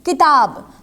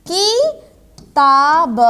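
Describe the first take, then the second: First: Said in the usual way. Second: किताब very slowly, broken into kii, taa, b; drawn-out "kii... taa... b" for किताब; syllable-by-syllable demo. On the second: Shown as a demonstration. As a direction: stretch and separate each syllable of किताब. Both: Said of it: "दीर्घ के उच्चारण में अधिक समय लगता है".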